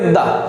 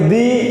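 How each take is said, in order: First: The vowel is a short 'uh' sound. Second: The vowel is a long 'ee' sound. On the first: The next word begins with a consonant sound. "और व्यंजन का होगा तो हम पढ़ेंगे दा" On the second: The next word begins with a vowel sound. "यदि उसका उच्चारण स्वर का अगर होगा तो उसमें हम पढ़ेंगे दी"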